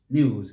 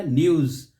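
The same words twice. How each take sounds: First: "news" as NYOOZ, one syllable; smooth y glide in "news"; British news. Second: "news" as NI-OOZ; wrong local news. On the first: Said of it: "British news". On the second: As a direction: split the vowel of "news" in two. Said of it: "Let's correct that one". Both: Shown as a demonstration.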